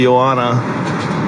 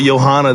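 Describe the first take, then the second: First: The name has no H sound after the first vowel. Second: The name has an H sound after the first vowel. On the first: The speaker calls it right. "Call her Joanna. ... There's no H" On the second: The speaker calls it wrong. "don't call her Johanna"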